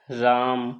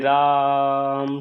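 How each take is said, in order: First: The word is said at normal length. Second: The vowel is stretched out long.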